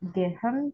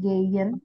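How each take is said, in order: First: The middle sound is a clear h. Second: The middle sound is a soft y glide. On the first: The speaker calls it wrong. "bukan gehen" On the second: The speaker calls it right. "tapi geyen... malah seperti y gitu ya terdengarnya"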